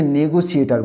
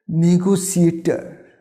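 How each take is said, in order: First: "নেগোসিয়েটার" starting with "ne"; wrong pronunciation. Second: "নেগোসিয়েটার" slow, starting with "ni"; correct pronunciation. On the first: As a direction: say "নেগোসিয়েটার" as ne-go-si-e-tar. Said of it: "নেগোসিয়েটার বলবো না". ("নেগোসিয়েটার" ভুল উচ্চারণে, নে দিয়ে শুরু) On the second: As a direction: say "নেগোসিয়েটার" slowly as ni-go-si-e-tə. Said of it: "এটাকে আমরা বলবো". ("নেগোসিয়েটার" ধীরে, নি-গো-সিয়েটার) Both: Shown as a demonstration.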